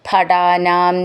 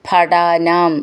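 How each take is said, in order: No difference in how they are said.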